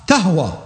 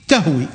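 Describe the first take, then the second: First: "تهوى" said tahwa, ending in a long aa sound; "تهوى" pronounced tahwa, the Ahl al-Bayt reading. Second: "تهوي" said tahwi, ending in a long ee sound; "تهوي" pronounced tahwi as in the written text; tahwi reading. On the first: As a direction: say "تهوى" with final alif, tahwa. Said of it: "أول قراءة ذكرها". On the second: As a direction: say "تهوي" with final yaa, tahwi. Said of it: "النص المصحفي". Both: Shown as a demonstration.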